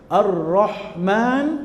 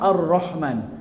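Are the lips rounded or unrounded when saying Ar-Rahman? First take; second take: rounded; unrounded. First: It is said with rounded, pouted lips. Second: It is said with unrounded, unpouted lips. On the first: The speaker calls it wrong. "tak betul" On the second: The speaker calls it right. "Dia mulut tak muncung"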